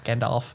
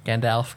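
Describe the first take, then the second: First: Rounded "aw" in the second syllable of Gandalf; Gandalf with an "olf" ending. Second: Short "e" in the second syllable of Gandalf; Gandalf with an "elf" ending. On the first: Demonstrating both versions of a name, Gandalf pronounced "GAN-dolf". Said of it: "I've said them both". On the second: Demonstrating a disputed name, Gandalf pronounced "GAN-delf". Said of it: "I love the way that you say Gandalf". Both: Shown as a demonstration.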